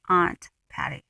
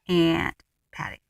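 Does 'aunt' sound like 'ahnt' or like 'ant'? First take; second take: ahnt; ant. First: Aunt is said with a broad 'ah' vowel. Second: Aunt is said like the insect 'ant'. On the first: The speaker calls it right. "It's aunt" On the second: The speaker calls it wrong. "not Aunt Patty. I don't have any aunts or uncles who are aunts"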